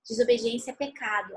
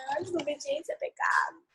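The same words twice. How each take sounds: First: Said in the usual way. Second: Imitating a child who already knows it; child's rote answer. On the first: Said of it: "ela costuma responder". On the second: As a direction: mimic a kid reciting a familiar lesson. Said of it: "Aí ela já fala assim".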